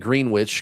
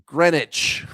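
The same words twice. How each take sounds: First: Greenwich is pronounced the American way. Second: Greenwich is pronounced the British way. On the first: The speaker calls it wrong. "I've been saying that wrong ... because I'm American" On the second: The speaker calls it right. "and it's Greenwich"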